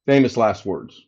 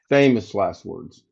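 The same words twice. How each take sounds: First: Said in the usual way. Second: Famous last words drawn out slowly and lower; slow, knowing repeat. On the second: Shown as a demonstration. Repeating the tech's promise to the stream, slow and wry. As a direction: let it sink in, slowly.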